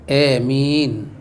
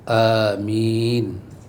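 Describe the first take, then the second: First: The first vowel leans from a toward e. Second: The first vowel a is drawn out long. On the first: "dengan imalah" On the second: "a dibaca panjang"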